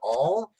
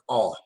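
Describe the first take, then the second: First: The vowel is long and drawn out. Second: The vowel is short and quick. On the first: "very long and drawn out" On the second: "a quick all"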